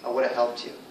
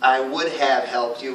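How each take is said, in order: First: 'Would have' is reduced and run together. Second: 'Would have' is pronounced in full. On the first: "We reduce those all the time" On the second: "instead of saying"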